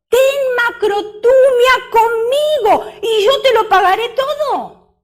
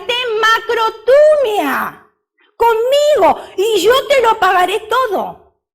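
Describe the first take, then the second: First: High, loud half-sung plea; plead, almost singing it; begging servant. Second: High, loud begging plea, drawn out; pleading servant. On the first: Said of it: "le rogaba diciendo". (ruego agudo y alto, casi cantado) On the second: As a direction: beg like a servant on his knees. Servant begs his lord, retold. (súplica aguda y alta de siervo) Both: Acted.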